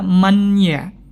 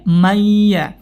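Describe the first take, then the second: First: The n is pronounced clearly before the y. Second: The n merges nasally into a doubled y. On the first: The speaker calls it wrong. "Jangan sampai kita baca man ya" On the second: The speaker calls it right. "dibaca dengan idgham langsung ke huruf ya"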